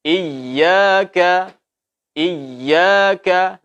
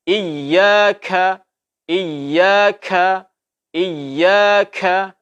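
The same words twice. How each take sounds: First: Sung, recite iyyaka gently; sung, recited iyyaka. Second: Iyyaka with kaf puffed out; overaspirated kaf. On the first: Sung, teacher reciting iyyaka correctly. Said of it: "umpamanya pengucapan iyyaka". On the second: Teacher showing the wrong breathy iyyaka. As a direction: blow extra air on the kaf in iyyaka. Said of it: "Ini tidak boleh". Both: Shown as a demonstration.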